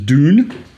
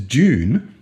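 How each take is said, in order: First: It starts with a plain D sound. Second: It starts with a J-like sound. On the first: "You can pronounce it American, which is Dune, D O O N" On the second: "or you can pronounce it Australian, which is June, J O O N"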